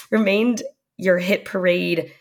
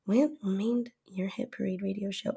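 First: Said in the usual way. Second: Breathy whisper, much softer. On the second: Real, not acted. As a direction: drop to a whisper. Same words repeated in a whisper.

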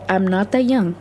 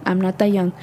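No difference in how they are said.

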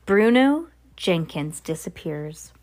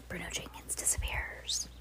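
First: Said in the usual way. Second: Hushed, breathy whisper; a spooky whispered aside. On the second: Shown as a demonstration. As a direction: whisper it like a secret. Repeats line, then whispers it.

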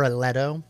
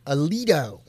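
First: Aledo said "uh-LEH-doh"; short-e pronunciation. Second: Aledo said "uh-LEE-doh"; long-e pronunciation. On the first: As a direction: say Aledo with an "eh" in the middle. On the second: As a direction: say Aledo with an "ee" in the middle. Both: Shown as a demonstration. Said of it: "I'm guessing it's Aledo".

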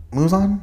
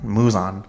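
First: "Muzan" pitched high, unsure; "Muzan" as a high-pitched guess; questioning. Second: Said in the usual way. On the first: Real, not acted. Trying out the villain's name.

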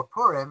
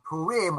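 First: Purim as "POOR-im", weight on the first syllable. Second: Purim as "poo-REEM", weight on the second syllable. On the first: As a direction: give Purim a short "im" ending. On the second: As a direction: give Purim a long "ee" ending. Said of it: "however you like to pronounce it". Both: Shown as a demonstration.

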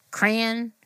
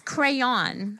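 First: Crayon said CRAY-un; variant pronunciation. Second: Crayon said CRAY-on; full pronunciation. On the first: Retold or imitated. Co-host quoting others, crayon as CRAY-un. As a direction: reduce the second vowel of crayon. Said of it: "I've heard people say". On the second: Shown as a demonstration. Co-host restoring the missing middle, crayon as CRAY-on. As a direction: sound both syllables of crayon, open "on". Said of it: "leave out the middle of the word".

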